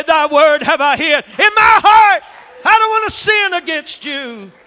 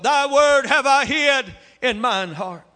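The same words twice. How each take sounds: First: Loud, high, ringing declaration of the verse; shouted scripture. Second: Said in the usual way. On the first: Acted. Preacher crying the verse to the congregation, loud and high. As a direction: cry the verse out at the peak.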